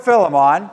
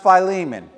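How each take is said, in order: First: Philemon said as FILL-uh-mon; variant pronunciation. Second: Philemon said as fye-LEE-mun; "Philemon" as fie-LEE-min; alternative pronunciation. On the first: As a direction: say Philemon with a short first i and "mon" ending. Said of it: "I'm gonna pronounce it both ways". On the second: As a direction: say Philemon with a long i, stressing LEE. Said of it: "also possible pronounced Philemon". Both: Shown as a demonstration.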